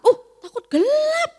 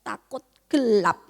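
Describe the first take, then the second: First: Much higher and louder, mock astonished echo; playful teacherly shock at a child's answer; mock surprise. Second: Said in the usual way. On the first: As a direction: gasp it back like it's shocking news.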